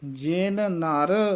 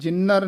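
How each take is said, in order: First: The two words are kept apart, both n sounds heard. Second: The two words run together with one n. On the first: The speaker calls it right. "ਨਖੇਰ ਕੇ ਪੜ੍ਹਨਾ ਹੈ" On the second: The speaker calls it wrong. "ਜਿਨਰ ਨਹੀਂ ਕਹਿ ਦੇਣਾ"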